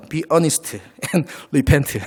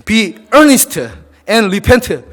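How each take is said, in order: First: Very slow English read with a German-style accent. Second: Said in the usual way. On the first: Shown as a demonstration. Preacher reading the English verse to the church in a German-style accent. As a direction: spell out Be earnest and repent slowly in a German-style accent. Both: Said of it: "발음이 뭐 독일식입니다".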